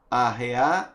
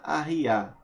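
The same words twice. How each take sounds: First: "Arrear" with a clear e, a-he-ar; "Arrear" said as a-re-ar, for harness; e sound, arrear. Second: "arriar" with i, a-hi-ar; "arriar" said as a-ri-ar, for lowering; i sound, arriar. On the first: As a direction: say "Arrear" with e, rising. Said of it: "Arrear, por arreios". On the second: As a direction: say "arriar" with i, falling. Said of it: "Arriar, abaixar". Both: Shown as a demonstration.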